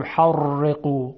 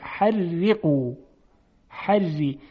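First: Thick, dark r in «حرقو» where it should be thin; wrong heavy ر. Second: Thin, delicate ر in «حرقو»; light r before i, held slowly in «حرقو»; ترقیق. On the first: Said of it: "غلطه". («حرقو» با رای درشت و غلط) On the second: («حرقو» با رای نازک و ظریف) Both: Shown as a demonstration.

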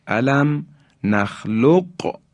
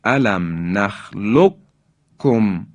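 First: نخلقکم with the قاف sounded before کم; slow recitation, separate ق and ک in نخلقکم; qaf pronounced. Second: نخلقکم said as nakhlukkum, doubled k; slow recitation, drop the ق in نخلقکم for a held k; qaf merged into kaf. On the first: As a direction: keep a clear q in نخلقکم, then k. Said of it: "یعنی قاف ساکن هست". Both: Shown as a demonstration.

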